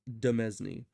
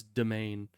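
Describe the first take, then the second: First: It is not pronounced like 'domain'. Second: It is pronounced like 'domain'. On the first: The speaker calls it wrong. "probably is not pronounced Demesne" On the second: The speaker calls it right. "apparently it's domain"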